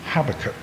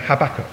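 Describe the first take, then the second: First: The name is said in a British accent. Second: The name is said in an American accent.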